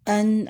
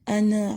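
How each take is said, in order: First: The final consonant is held smoothly without a bounce. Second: The final consonant is released with an abrupt jolt. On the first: The speaker calls it right. "आवाज़ थोड़ी जारी रहेगी और थोड़ी सी रुकेगी" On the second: The speaker calls it wrong. "इस तरह गलत होगा"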